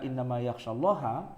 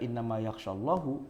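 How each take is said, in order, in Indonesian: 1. Kata terakhir diakhiri dengan vokal 'a'. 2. Kata terakhir diakhiri dengan vokal 'u'. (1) "dibaca ha" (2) "dibaca hu"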